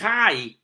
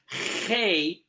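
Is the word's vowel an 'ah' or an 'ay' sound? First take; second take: ah; ay. First: The vowel is an 'ah' sound. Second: The vowel is an 'ay' sound. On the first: "with the Ah vowel, called Patach" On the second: "vowel A, called Seirei"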